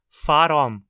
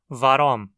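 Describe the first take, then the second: First: The word begins with an F sound. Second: The word begins with a V sound.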